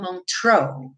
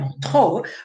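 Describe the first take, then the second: First: It is pronounced the English way. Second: It is pronounced the French way. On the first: "mas aqui é em inglês, então eles falam Montreux" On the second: "no francês seria Montreux"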